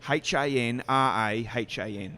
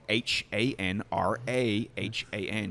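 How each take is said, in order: First: The letters are spelled in a non-American accent. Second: The letters are spelled in an American accent. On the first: The listener on the phone struggles to follow it. The speaker calls it wrong. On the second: The listener on the phone understands it easily. The speaker calls it right.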